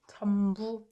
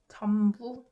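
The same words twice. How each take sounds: First: The first syllable ends with an m sound. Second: The first syllable ends with an m sound.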